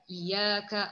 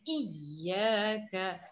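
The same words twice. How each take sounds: First: The doubled y sound is not made clear. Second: The doubled y sound is made clear. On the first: The speaker calls it wrong. "jangan disebut iyyaka iyyaka ah tu salah" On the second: The speaker calls it right. "Perlu dijelaskan iyyaka"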